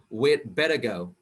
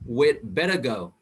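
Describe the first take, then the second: First: The word had is contracted to 'd. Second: The word had is contracted to 'd.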